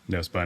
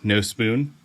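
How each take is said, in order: First: The second word has a short 'uh' vowel. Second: The second word has a long 'oo' vowel. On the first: The speaker calls it wrong. "I kept wanting to say No Spun" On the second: The speaker calls it right. "I had to look up how to pronounce it"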